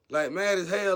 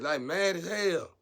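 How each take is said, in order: First: Louder repeat, punching it; loud emphatic. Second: Slow emphatic. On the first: Telling viewers how furious they were, louder. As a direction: belt it out the second time. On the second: Telling viewers how furious they were, slowly. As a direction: stretch it out slow and heavy. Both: Shown as a demonstration.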